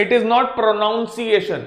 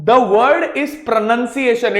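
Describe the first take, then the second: First: Pronunciation drawn out as pro-noun-see-ay-shun; wrong NOUN vowel. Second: Pronunciation drawn out as pro-nun-see-ay-shun; correct NUN vowel. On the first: Teacher rejecting the error, slow pronunciation with "noun". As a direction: slowly say "noun" inside pronunciation. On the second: Teacher giving students the word, slow pronunciation with "nun". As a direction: slowly say "nun" inside pronunciation. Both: Shown as a demonstration.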